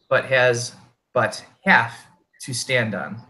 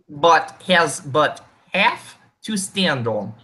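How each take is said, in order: First: It is said in his normal voice. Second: It is said in a put-on character voice.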